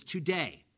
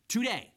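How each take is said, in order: First: Said in the usual way. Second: "today" repeated higher and louder; emphatic TODAY. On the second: Shown as a demonstration. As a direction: punch the word "today" with a raised pitch. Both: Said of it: "and it's emphatic".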